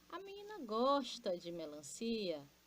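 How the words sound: It is said as an exclamation.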